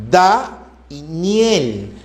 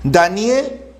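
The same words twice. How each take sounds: First: DA, pause, NIEL, each syllable drawn out. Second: Said in the usual way. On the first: Shown as a demonstration. Teacher asking how many syllables Daniel has, syllable by syllable. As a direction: slowly split Daniel into DA and NIEL. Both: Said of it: "¿Cuántas sílabas hay ahí?".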